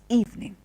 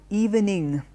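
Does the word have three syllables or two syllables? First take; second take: two; three. First: The word is said with two syllables. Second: The word is said with three syllables. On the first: The speaker calls it right. "it is evening" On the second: The speaker calls it wrong. "add an extra syllable in the end. It is not evening"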